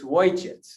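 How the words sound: The word starts with a w sound. This is the regional dialect form.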